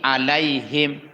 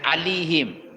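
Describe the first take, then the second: First: The middle vowel is a gliding 'ai' sound. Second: The middle vowel is a plain 'i' sound. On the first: The speaker calls it right. "antara a dengan i alaihim" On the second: The speaker calls it wrong. "dan alihim"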